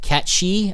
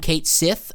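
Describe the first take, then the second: First: The name ends with a 'shee' sound. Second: The name ends with a 'sith' sound. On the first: This is the official way of saying it. "I don't like his real pronunciation" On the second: This is the speaker's preferred way of saying it. "I will call him Cait Sith"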